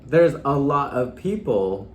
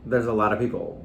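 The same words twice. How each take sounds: First: The word 'of' is pronounced fully and clearly. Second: The word 'of' is reduced and blended in.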